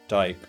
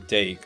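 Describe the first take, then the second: First: The vowel sounds like the one in 'die'. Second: The vowel sounds like the one in 'day'. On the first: This is how English speakers say it. "and English is" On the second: This is how Dutch speakers say it. "Dutch, it would be"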